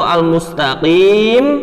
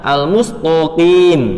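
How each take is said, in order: First: The t sound is plain. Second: The t sound is heavy and emphatic. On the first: The speaker calls it right. "asli dalam Al-Quran itu al-mustaqim" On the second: The speaker calls it wrong. "huruf ta dirubah menjadi huruf to"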